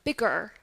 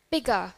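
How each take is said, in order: First: "bigger" ending in a clear "er"; American rhotic R. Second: "Bigger" ending in "guh", no R; British non-rhotic. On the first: Teacher contrasts last one, American R. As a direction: curl into the final R of "bigger". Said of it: "In American English". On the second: Teacher says it together with class, British, no R. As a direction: drop the R at the end of "Bigger". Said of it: "in British accent, we would say". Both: Shown as a demonstration.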